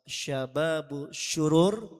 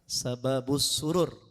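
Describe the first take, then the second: First: The name is said with an sh sound. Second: The name is said with a plain s sound. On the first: It refers to wicked young men. The speaker calls it wrong. "Kalau pakai shin, shin bertitik" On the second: It refers to joyfulness. The speaker calls it right. "Jadi bukan pakai shin"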